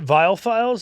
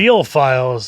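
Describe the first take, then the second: First: The first word rhymes with files. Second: The first word rhymes with real. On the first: The speaker calls it right. "Am I pronouncing this right?" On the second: The speaker calls it wrong. "it doesn't have the same ring"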